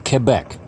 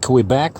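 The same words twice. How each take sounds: First: The name is said with the local pronunciation. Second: The name is said with a non-local pronunciation. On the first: This is how people there say it. The speaker calls it right. "the way they pronounce them over here" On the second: This is how the speaker used to say it. The speaker calls it wrong. "not Quebec like I used to say"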